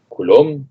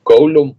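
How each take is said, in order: First: Coulomb said "ku-lom" with a plain u; his own pronunciation. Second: Coulomb said "kou-lom" with a gliding ou, higher and stressed; YouTube-video pronunciation. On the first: Shown as a demonstration. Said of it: "yo digo coulomb". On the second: Retold or imitated. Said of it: "como dice el de los videos de YouTube".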